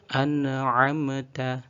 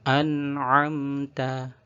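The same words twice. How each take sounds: First: The consonants carry an added bouncing echo sound. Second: The consonants are held cleanly, without any bounce. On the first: The speaker calls it wrong. "Contoh yang ada bacaan tawalludnya" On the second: The speaker calls it right. "Maka kedua contoh tersebut perlu dihindari"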